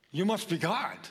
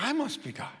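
First: Dog's voice. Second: A cat's smug line, pitched well up. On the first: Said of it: "Do we respond like a dog?". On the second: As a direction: tip it up high like a cocky cat. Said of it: "Or like a cat?". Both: Retold or imitated.

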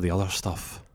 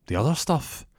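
First: Said in the usual way. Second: "The other stuff?" with OTHER lifted high, rising at the end; puzzled echo question. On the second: Acted. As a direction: query "The other stuff?" back in a higher pitch. Shop owner echoes accusation as question.

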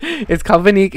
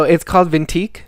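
First: "Vinique" with no T; corrected pronunciation. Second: "Vintique" with a T in the middle; mispronounced name. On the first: Host corrects the label name for listeners, "Vinique" without T. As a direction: say "Vinique", N straight into the last syllable. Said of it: "It's Vinique". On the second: Host repeats the misread label, "Vintique" with a T. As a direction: say "Vintique", adding a T that isn't there. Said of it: "There's no T in there". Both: Real, not acted.

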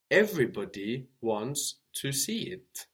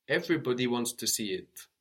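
First: Said in the usual way. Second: Quick run-through of "Everybody wants to see it"; faster repeat. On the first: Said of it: "repeated faster". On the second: Shown as a demonstration. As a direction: rattle it off faster.

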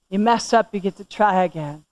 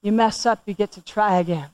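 The two takes are said the same way.

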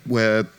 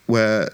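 The two takes are said the same way.

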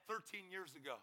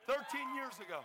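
First: Said in the usual way. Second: THIRTEEN YEARS AGO high, loud and proud; celebratory shout; triumphant repeat. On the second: Real, not acted. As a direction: proclaim the repeat to the crowd. Triumphant repeat to cheering crowd.

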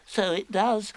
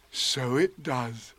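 First: High little animal voice; small squeaky echo of a friend; Piglet. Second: Slow, wondering bear voice; Pooh. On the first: Piglet agreeing with Pooh, small high voice. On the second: Pooh watching the balloon go in, slow wonder. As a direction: take it in slowly. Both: Acted.

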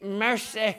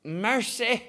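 First: "Mercy" said with a Southern sigh; exasperated Southern "Mercy"; drawn-out Southern "Mercy". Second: "Mercy" drawn out Southern style, sighed; Southern exclamation "Mercy". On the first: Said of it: "You have to say it". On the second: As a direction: say "Mercy" like a tired Southern mother. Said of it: "it's saying like this". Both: Shown as a demonstration.

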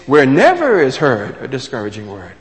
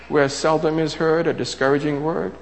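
First: Loud, emphatic "never"; stress on never. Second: Said in the usual way. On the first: Shown as a demonstration. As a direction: hit "never" hard, then let the rest fall away. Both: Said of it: "Only now, it's".

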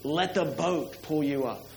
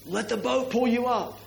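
First: Said in the usual way. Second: Coaching yell from the boat. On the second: Retold or imitated. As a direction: shout it out to the skier. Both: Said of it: "everybody in the boat will yell out".

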